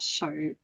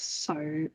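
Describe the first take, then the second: First: It begins with a 'sh' sound. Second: It begins with an 's' sound. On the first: The speaker calls it wrong. "there's no S H sound. It's not so" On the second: The speaker calls it right. "it's so"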